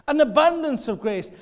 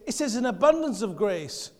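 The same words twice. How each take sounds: First: An abundance of grace, louder and higher with abundance hit hard; stress on abundance. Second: Said in the usual way. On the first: Real, not acted. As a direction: punch abundance out to the crowd. Repeats phrase for emphasis.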